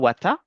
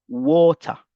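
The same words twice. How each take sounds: First: The word is said with a non-British pronunciation. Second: The word is said with a British pronunciation. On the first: The speaker calls it wrong. "Ne dites pas water" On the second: The speaker calls it right. "mais plutôt water. Ça, c'est l'anglais britannique"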